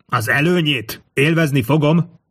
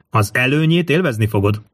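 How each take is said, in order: First: Mild scornful echo; mocking. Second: Said in the usual way. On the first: A narrator's reading. King mockingly repeats the scholar's promised advantage, mocking. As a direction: throw it back with light mockery. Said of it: "gúnyos hangon".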